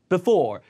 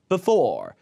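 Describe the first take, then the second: First: The first vowel is reduced to a weak schwa. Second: The same.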